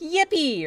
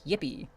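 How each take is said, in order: First: It is said with lively emphasis. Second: It is said flatly without emphasis.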